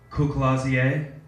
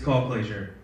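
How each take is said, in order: First: The surname is pronounced in a French style. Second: The surname is pronounced in a plain English style. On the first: Someone else said it, treating the name as French. The speaker calls it wrong. "if it's French, it's Courclazier" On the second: The name's owner says it his own way. The speaker calls it right. "it's it's Call Glazier"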